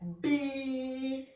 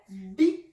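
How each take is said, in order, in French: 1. La voyelle est longue. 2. La voyelle est brève. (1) "il est là pour prolonger la kasra" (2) "Si nous avions une kasra, ça donnerait bi"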